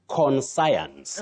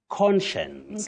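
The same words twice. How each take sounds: First: The word ends sounding like 'science'. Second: The word does not end sounding like 'science'. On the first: The speaker calls it wrong. "We have the word science, but we should not say conscience" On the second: The speaker calls it right. "You say conscience"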